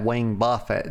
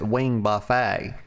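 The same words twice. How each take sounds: First: Buffet is said like BUFF-it, stress first. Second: Buffet is said like boo-FAY, stress last. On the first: It means a striking blow. The speaker calls it right. "there are very evil people out there that don't pronounce that Wing Buffet" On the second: It means a meal of dragon wings. The speaker calls it wrong. "They pronounce it Wing Buffet. Because these motherfuckers out here talking about eating dragon wings"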